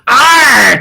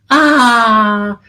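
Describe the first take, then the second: First: The letter ends in a hard growled R sound. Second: The letter is a soft open ah, no R. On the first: "you put a hard sound to that R. You sound like pirates" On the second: "there we pronounce this lovely letter ah. ... it's rather soothing and calming"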